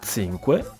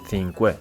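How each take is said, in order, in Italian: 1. La parola inizia con un suono ts. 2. La parola inizia con un suono th. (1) "con una Z di stazione" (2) "con una interdentale simile a quella dell'inglese"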